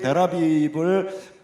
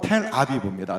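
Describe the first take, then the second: First: The name begins with a plain, unaspirated consonant. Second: The name begins with an aspirated consonant. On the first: This is the customary local form of the name. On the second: This is how the original language pronounces it.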